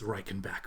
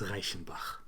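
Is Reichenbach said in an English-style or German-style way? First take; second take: English-style; German-style. First: It is said in an English-style way. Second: It is said in a German-style way. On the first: The speaker calls it wrong. "most people mispronounce that uh, as Reichenbach" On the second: The speaker calls it right. "It's Reichenbach"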